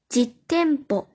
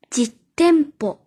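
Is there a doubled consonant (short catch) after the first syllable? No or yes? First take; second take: yes; yes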